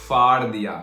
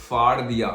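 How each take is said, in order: No difference in how they are said.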